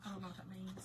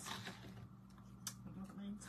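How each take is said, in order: First: Said in the usual way. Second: Whispered to yourself, confused; puzzled whisper. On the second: Real, not acted. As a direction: drop to a voiceless murmur. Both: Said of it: "repeated, then whispered".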